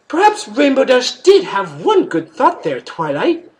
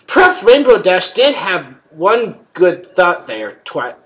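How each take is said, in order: First: The line is read in a put-on character voice. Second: The line is read without the character's voice. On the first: The speaker calls it right. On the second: The speaker calls it wrong.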